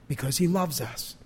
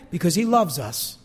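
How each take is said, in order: First: Softer, lower, letting it sink in; hushed repeat. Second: Said in the usual way. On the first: Real, not acted. Preacher repeating God's reason to the congregation, hushed. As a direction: drop the voice and say it tenderly. Repeats the phrase softly for effect.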